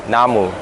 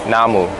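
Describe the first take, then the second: Both takes have the same delivery.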